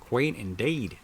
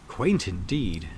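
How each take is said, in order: First: It is said in an attempted Boston accent. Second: It is said in a plain, natural voice. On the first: "Maybe I should attempt a Boston accent" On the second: "I suppose it's going to be my voice"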